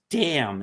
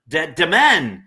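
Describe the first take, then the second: First: The word is said with a silent final N. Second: The word is said with a sounded final N. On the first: The speaker calls it right. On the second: The speaker calls it wrong.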